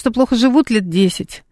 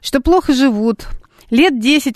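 First: The pause comes after 'лет 10'. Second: The pause comes before 'лет 10'. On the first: They have been living badly for ten years. "можно так и сяк прочесть" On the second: For ten years they have been unable to visit a restaurant. "а может так"

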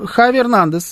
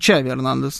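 First: The name begins with a throaty kh sound. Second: The name begins with a ch sound.

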